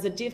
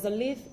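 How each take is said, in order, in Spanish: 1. La consonante del medio es un sonido parecido a la J. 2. La consonante del medio es un sonido L. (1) "pronunciant Azadjif" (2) "no Azadlif"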